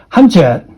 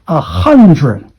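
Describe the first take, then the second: First: "hundred" with a ch sound, hun-ched; the mistaken "hundred" to avoid; mock wrong "hundred". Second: "hundred" with a clear dr in the middle; careful teacher's "hundred"; correct hundred. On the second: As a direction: say "hundred" as hun-dred. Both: Shown as a demonstration. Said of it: "not hundred".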